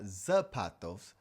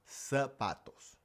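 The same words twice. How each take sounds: First: The word begins with a buzzing z sound. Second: The word begins with a hissing s sound. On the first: The speaker calls it wrong. "So it's not zapatos" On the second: The speaker calls it right. "the Z actually just makes an S sound"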